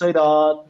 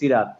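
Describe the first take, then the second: First: The first syllable is rounded and heavy. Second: The first syllable is plain and unrounded. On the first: The speaker calls it right. "একটু উচ্চারণটা গোল করে" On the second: The speaker calls it wrong. "Normal সিনের সি এর মতো সি বললে হবে না"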